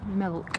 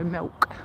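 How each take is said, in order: First: The L is clear, rhyming with silk. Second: The L sounds like a W sound. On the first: "pronounce it as milk, like silk now" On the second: "with a Leicestershire accent is more like Millwall"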